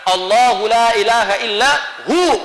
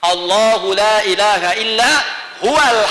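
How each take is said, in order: First: The last word drops its final wa sound. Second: The last word keeps its final wa sound. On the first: The recitation stops at this word. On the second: The recitation continues without stopping.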